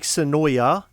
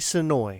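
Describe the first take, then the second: First: The name ends with an extra 'ah' sound. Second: The name ends on the 'oy' sound. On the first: The speaker calls it wrong. "we kept saying that, and the woman's like, "That's not how it's pronounced" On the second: The speaker calls it right. "Think about it this way: enjoy Sonoy"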